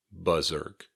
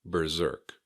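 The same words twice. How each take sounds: First: "berserk," with no R in the first syllable; "berserk," opening on a plain buh; alternative pronunciation. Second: "Berserk." with R in both syllables; "Berserk." with the first R sounded; standard pronunciation. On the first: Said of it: "Some people might also say something like". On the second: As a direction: say "Berserk." as ber-ZERK. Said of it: "that's also okay". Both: Shown as a demonstration.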